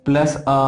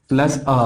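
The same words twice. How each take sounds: No difference in how they are said.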